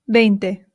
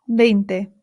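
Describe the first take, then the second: The two takes are said the same way.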